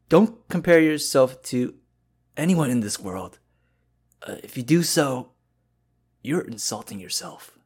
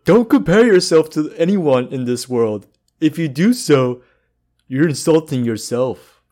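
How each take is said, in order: First: It is said in an old man's voice. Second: It is said in an impression of Patrick.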